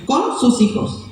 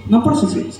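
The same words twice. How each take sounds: First: Con marcado con fuerza; énfasis en Con. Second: Por marcado con fuerza; énfasis en por. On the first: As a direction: recalca la palabra Con. (con énfasis en Con) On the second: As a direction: recalca la palabra por. (con énfasis en por) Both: Shown as a demonstration.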